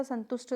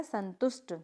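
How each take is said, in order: First: संतुष्ट ending in aspirated Th; wrong pronunciation. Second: संतुष्ट ending in plain T; correct pronunciation. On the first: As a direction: demonstrate संतुष्ट with a puff at the end. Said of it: "कुछ भी नहीं होता". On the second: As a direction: model संतुष्ट with no puff on ट. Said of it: "तो क्या होता है?". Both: Shown as a demonstration.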